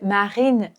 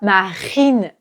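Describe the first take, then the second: First: The R is light and barely pronounced. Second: The R is strong and harsh from the throat. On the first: The speaker calls it right. "Donc, c'est Marine" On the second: The speaker calls it wrong. "C'est trop, c'est trop violent"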